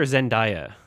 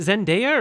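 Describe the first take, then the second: First: "Zendaya" with a DIE middle, zen-DYE-uh; alternate pronunciation. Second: "Zendaya" with a DAY middle, zen-DAY-uh; alternate pronunciation. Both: Shown as a demonstration. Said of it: "is it [name] or [name]".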